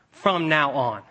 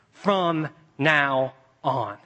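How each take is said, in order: First: Said in the usual way. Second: "From now on" stretched very slowly. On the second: Shown as a demonstration. Preacher ending on the words, very slowly. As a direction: draw each word out. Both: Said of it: "three little words".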